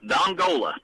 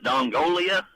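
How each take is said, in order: First: The name ends with a plain '-la' sound. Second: The name ends with an added '-lia' sound. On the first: The speaker calls it right. "it was Dongola" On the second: The speaker calls it wrong. "You called it Dongolia"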